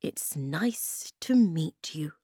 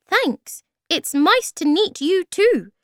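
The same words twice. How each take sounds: First: Put-on slow, careful greeting as to small children; drawn-out, simple and careful. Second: Very high, loud little voice; high-pitched small creature; tiny creature. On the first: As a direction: space the words out gently. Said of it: "he said very slowly, like they were small children". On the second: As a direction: squeak a polite reply. Tiny Thingamy answers the greeting. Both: A narrator's reading.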